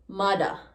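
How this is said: It has a d-sound and an ah ending.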